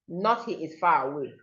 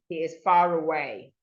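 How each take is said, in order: First: The R is not linked to the next word. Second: The R links smoothly into the next word. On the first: The speaker calls it wrong. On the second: The speaker calls it right.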